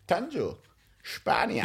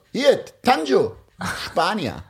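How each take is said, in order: First: Quiet, deadpan repeat. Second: Slow flirty introduction. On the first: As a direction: drop the voice to near a murmur. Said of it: "Der hat wirklich so gesagt". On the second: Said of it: "meint er so". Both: Retold or imitated.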